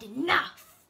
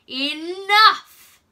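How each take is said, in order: First: A mild retelling of the shouted Enough!, louder; retold chilling voice. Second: Booming, higher, very loud shout of Enough!; chilling command. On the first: Charlie retelling the frightening voice to Benjamin, mild mock shout. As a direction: echo the scary Enough! without full force. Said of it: "the worst voice I ever heard". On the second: Acted. Mystery man silencing the arguing crowd with a chilling shout. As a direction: thunder the word Enough! to silence everyone. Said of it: "such a deep and chilling voice".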